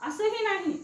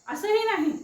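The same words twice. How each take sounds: Both takes have the same delivery.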